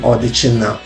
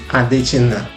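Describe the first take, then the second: First: The name begins with an O sound. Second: The name begins with an A sound. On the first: "which is supposed to be Odechina" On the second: "how this name came to be Adechina"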